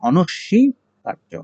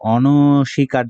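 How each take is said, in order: First: The s sound is held and doubled. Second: The s sound is short and single. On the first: The speaker calls it right. "এই যে ব ফলা রয়েছে অনস্বীকার্য হবে" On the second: The speaker calls it wrong. "অনস্বীকার্য নয়"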